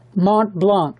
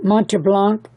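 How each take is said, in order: First: The first word has a single syllable. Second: The first word has an extra final vowel. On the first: The speaker calls it right. "let me correct that" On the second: The speaker calls it wrong. "once I said it"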